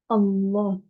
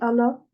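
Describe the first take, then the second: First: The l sound is held and emphasized. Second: The l sound is short and light. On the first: The speaker calls it right. "On dit Allah" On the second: The speaker calls it wrong. "C'est pas ça"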